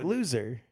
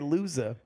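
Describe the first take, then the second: First: The final R is strongly pronounced. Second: The final R is dropped. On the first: "the hard R, the R is at the end of the word. So like loser" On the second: "I don't say the hard R. I say loser"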